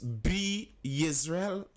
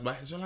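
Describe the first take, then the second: First: The first part sounds like 'bee'. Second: The first part sounds like 'bye'. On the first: "wasn't this Be Israel?" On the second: "I hear them pronounce it as By Israel"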